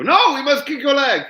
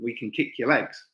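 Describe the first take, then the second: First: High, loud mock French accent; bad French accent. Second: Said in the usual way. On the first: French fighters insisting to the British, hammed-up French accent. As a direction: shout it in a badly faked French accent. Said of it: "that wasn't a French accent whatsoever". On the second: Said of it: "I'm not gonna do my French accent".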